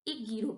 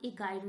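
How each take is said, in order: First: The middle syllable has a short 'gi' sound. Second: The middle syllable has a 'gai' sound. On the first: The speaker calls it right. "इसको हम एक गिरो पढ़ेंगे" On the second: The speaker calls it wrong. "इसे हम एक गायरो नहीं पढ़ेंगे"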